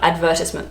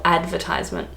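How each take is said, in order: First: Advertisement as ad-VER-tis-ment; British advertisement. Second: Advertisement as AD-ver-TIZE-ment; long i in "advertisement", like "ties"; Australian advertisement. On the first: Vlogger naming the version not used, British advertisement. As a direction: stress VER in "advertisement", short i after. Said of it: "not advertisement". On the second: Vlogger correcting herself, Australian advertisement. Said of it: "we would say". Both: Shown as a demonstration.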